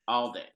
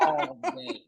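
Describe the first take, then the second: First: Said in the usual way. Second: High, giggly repeat; laughing. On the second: Real, not acted. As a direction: toss it off with a laugh. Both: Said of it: "I would do this".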